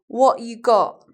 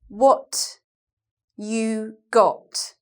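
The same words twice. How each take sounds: First: The T sounds are replaced by glottal stops. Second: The T sounds are clearly pronounced. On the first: "I'll say it without T's now" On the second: "I said that with T's"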